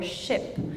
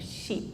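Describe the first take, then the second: First: The vowel is lower, as in kit. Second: The vowel is higher, close to fleece. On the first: "The tongue is a little bit lower" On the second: "she produces it higher up"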